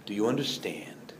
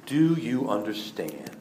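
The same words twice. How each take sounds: First: Whispered repeat of the question. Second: Slow, soft, low question; slow quiet question. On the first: Jesus presses the disciples again, now whispering. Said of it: "repeated as a whisper". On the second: Jesus asks his disciples after washing their feet, slow and quiet. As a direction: ask it gently and slowly, letting it sink in. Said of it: "and He asked them". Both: Acted.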